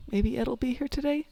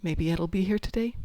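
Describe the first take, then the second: First: Much higher, hopeful wondering; higher hopeful repeat. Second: Mild hopeful wondering, rising at the end; hopeful musing. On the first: Player repeating a daily wish, higher and hopeful. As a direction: lift the whole line with rising hope. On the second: Player waking up each day, mildly hopeful. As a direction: wonder it lightly to yourself. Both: Acted. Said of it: "Every day I get up and it's like".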